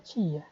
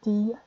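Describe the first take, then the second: First: It is said the Bahia way. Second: It is said the Alagoas way.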